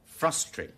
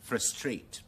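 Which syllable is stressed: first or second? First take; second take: first; second. First: The stress is on the first syllable. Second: The stress is on the second syllable. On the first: "美語將那個重音全部放在第一個音節那裡" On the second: "將那個重音放在第二個音節那裡"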